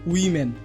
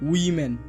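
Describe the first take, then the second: First: The first vowel sounds like 'ih' after w. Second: The first vowel sounds like 'ih' after w.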